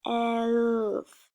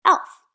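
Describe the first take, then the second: First: "elf" stretched into one long blend; slow, held "elf" for an early reader; sounding out. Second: "elf" said short and loud; punchy, whole "elf"; blended word. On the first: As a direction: draw out every sound of "elf". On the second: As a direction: snap "elf" together as one quick word. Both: Shown as a demonstration. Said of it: "you can sound these out".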